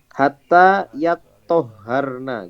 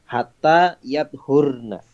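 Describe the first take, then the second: First: The t and h sounds are doubled. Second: The t sound is single and unvoweled. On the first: It means until they have bathed. "Toknya tasdid, haknya tasdid" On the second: It means until they are clean of menstruation. "Toknya sukun. Wa dhammil hak"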